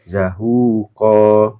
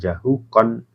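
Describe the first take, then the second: First: The word ends on a vowel, without final n. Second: The word ends with a final n sound. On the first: The speaker calls it right. "kalau diwakafkan kan zahuqa" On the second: The speaker calls it wrong. "bukan jahukon"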